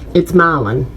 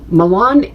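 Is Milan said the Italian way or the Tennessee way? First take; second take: Tennessee; Italian. First: Milan is said the way the Tennessee town is. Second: Milan is said the way the Italian city is. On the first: It names the town in Tennessee. "In Tennessee, it's Milan" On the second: It names the city in Italy. "Milan, Italy"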